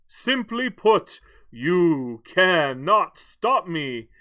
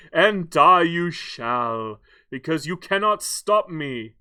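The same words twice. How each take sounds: First: Very slow, loud villain pronouncement; hammed-up Bond villain, word by word; Doctor No. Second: Slow, hammed-up villain declaration; gloating Bond-villain voice; Doctor No. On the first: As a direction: space out every word for menace. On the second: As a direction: draw it out with grand menace. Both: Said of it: "Doctor No from, uh, from James Bond".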